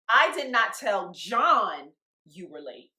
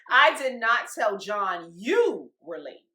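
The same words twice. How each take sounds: First: The word John is stressed. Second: The word you is stressed. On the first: A different person was told about the lateness. "Correct. I told Imani" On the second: John was told that a different person was late. "You told John somebody else was late"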